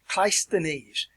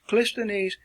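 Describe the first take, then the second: First: The first syllable has the vowel of 'eye'. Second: The first syllable has the vowel of 'miss'. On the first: "It actually has two pronunciations that are acceptable" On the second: "Or you can pronounce it Clisthenes"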